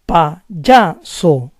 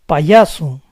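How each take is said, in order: First: The y sounds like a soft English j. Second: The y sounds like a soft ee glide.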